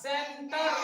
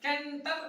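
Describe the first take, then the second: First: The word begins with an S sound. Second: The word begins with a K sound. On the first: The speaker calls it right. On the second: The speaker calls it wrong.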